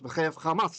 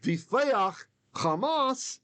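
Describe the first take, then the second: First: Only one accent covers both words. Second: Each word carries its own accent. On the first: This is the ancient reading. "like it's one word" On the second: This is the modern reading. "even the cantor will read it this way"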